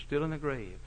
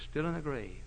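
No difference in how they are said.

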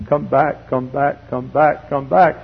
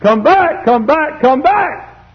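First: Said in the usual way. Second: High, loud pleading calls; sudden high holler of summons; urgent calling. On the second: Acted. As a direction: cry it out from the pulpit. Calls escalate to a cry.

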